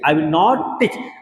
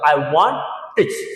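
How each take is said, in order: First: The words 'will not' are said in full. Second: The words are contracted to 'won't'.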